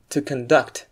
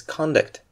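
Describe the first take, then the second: First: "conduct" with the second syllable stressed, con-DUCT. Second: "conduct" with the first syllable stressed, CON-duct. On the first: Teacher showing the verb form, second-syllable stress on "conduct". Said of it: "In the form of a verb". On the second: Teacher introducing the next item, first-syllable stress on "conduct". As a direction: say "conduct" as a noun, weight on CON. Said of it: "it sounds like to conduct". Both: Shown as a demonstration.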